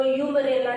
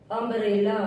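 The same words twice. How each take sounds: First: "यूमरेला" opening with a long "yoo"; wrong reading "यूमरेला", starting yoo instead of uh; mispronunciation demo. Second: "अम्ब्रेला" starting with अ, no y-glide; correct pronunciation. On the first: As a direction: misread the first vowel as the letter U in "यूमरेला". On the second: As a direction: say "अम्ब्रेला" opening on a short "uh" vowel. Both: Shown as a demonstration. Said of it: "इसको यूमरेला नहीं पढ़ेंगे".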